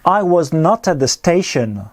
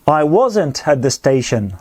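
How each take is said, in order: First: Was and not are said as two words. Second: Was and not merge into one contracted word.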